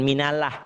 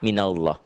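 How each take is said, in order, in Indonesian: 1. L dalam Allah tipis dan ringan. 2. L dalam Allah tebal dan penuh. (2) "dibaca tebal"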